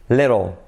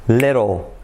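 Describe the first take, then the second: No difference in how they are said.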